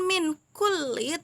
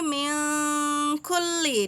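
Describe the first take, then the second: First: The n sound is pronounced clearly and fully. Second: The n sound is muffled and nasalized. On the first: The speaker calls it wrong. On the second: The speaker calls it right. "tapi min kulli di situ"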